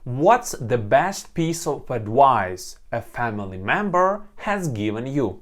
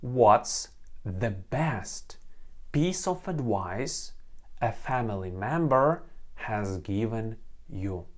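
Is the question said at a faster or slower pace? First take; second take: faster; slower. First: The question is said at a faster pace. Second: The question is said at a slower pace.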